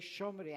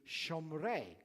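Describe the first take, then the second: First: The stress is on the first syllable, Ashkenazi style. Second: The stress is on the last syllable, Sephardi style.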